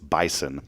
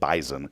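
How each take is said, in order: First: The middle consonant is an s sound. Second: The middle consonant is a z sound. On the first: "It's bison, by the way" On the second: "They say Z up there in Fargo ... they pronounce it bison"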